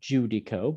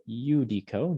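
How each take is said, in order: First: The word begins with a j sound. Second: The word begins with a y sound. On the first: The speaker calls it wrong. "not judico" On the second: The speaker calls it right. "makes a y sound"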